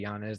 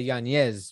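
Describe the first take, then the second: First: The middle consonant is a plain n sound. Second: The middle consonant is a palatal ny sound. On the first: This is a simplified version for English speakers. "Just say Yañez. That's fine" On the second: This is the name's proper native pronunciation. "the N is supposed to have an Enya"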